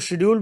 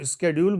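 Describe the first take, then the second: First: The word begins with an 'sh' sound. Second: The word begins with an 'sk' sound. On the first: This is the older way that was taught. "मैंने तो शेड्यूल बोलना सीखा है" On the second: This is the newer American way. "वो स्केड्यूल बोलते हैं ... American pronunciation"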